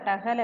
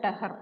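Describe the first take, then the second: First: The word ends with an L sound. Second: The word ends with an R sound. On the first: The speaker calls it wrong. "ടഹൽ അല്ല" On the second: The speaker calls it right. "ടഹർ എന്നാ പറയും"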